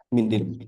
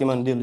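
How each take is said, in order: First: The first vowel is an 'i' sound. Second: The first vowel is an 'a' sound. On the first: "Mindil, sapu tangan" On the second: "Terkadang bisa dibaca seperti mandil juga"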